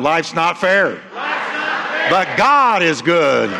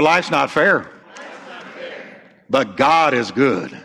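First: It is shouted loudly and forcefully. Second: It is said at an ordinary speaking volume.

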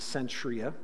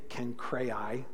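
First: The name is said with an English pronunciation. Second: The name is said with a Greek pronunciation. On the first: "That's how we would read it in English" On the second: "is the Greek pronunciation"

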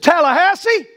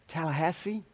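First: It is said confidently, like a certain answer. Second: It is said doubtfully, like an unsure guess. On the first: The speaker is certain of the answer. "or you did not" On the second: The speaker is unsure of the answer. "Whether you had doubt"

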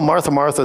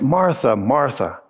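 First: The voice sounds exasperated and scolding. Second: The voice sounds warm and affectionate. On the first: The listener is being scolded for a repeated fault. The speaker calls it wrong. "there you go again" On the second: The listener is being called with love and care. The speaker calls it right. "showing his affection, his love"

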